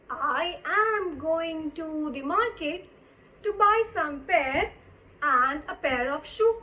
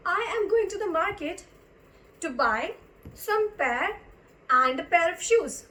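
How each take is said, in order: First: Slow, drawn-out teacher's reading; word by word, with pauses between phrases; slow repeat. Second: Said in the usual way. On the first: Shown as a demonstration. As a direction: stretch each word out for learners. Slow repeat of example sentence.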